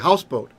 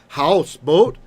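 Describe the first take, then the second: First: Only one syllable carries the stress. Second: Both syllables carry equal stress. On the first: The speaker calls it right. "There's just one accent" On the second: The speaker calls it wrong. "We don't say houseboat"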